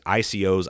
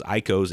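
First: I C Os, each letter said separately; spelled out letters. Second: Icos said as one word, EYE-kohs. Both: Shown as a demonstration.

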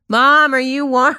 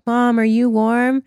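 First: Put-on higher shaky old person repeat; very old faint voice. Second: Put-on very old faint voice. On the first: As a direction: pretend to be very old. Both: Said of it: "And they're like".

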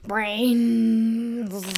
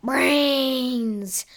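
First: Zombie mumble. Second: Zombie groan. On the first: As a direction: moan it like the undead. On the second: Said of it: "the zombies all started groaning". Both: Acted.

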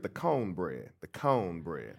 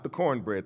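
First: "cone bread" with a long, rounded "cone"; Southern "cone bread". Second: Said in the usual way. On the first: Shown as a demonstration. Preacher teaching great-grandmother's word for cornbread, "cone bread" with no R. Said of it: "That's how you gotta say it". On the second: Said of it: "not the cornbread".

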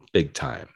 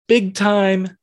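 First: Trailing low. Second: Emphatic high. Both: Acted. Repeating phrase in stepping pitch.

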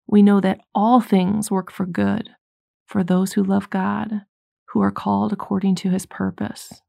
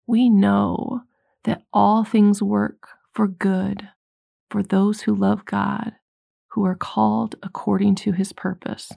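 First: Said in the usual way. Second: Slow scripture reading. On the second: Shown as a demonstration. Preacher slowly reading Romans to the congregation, solemn. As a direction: read the verse slowly and solemnly, word by word. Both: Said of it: "It's Romans eight twenty-eight".

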